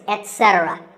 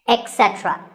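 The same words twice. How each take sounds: First: The first syllable is said as 'et'. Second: The first syllable is said as 'ek'. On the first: The speaker calls it right. "instead of et" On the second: The speaker calls it wrong. "A very common incorrect pronunciation is to say ec"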